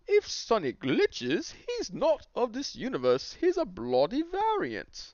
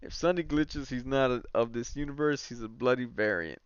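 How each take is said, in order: First: It is said in a put-on British accent. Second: It is said in the speaker's normal accent.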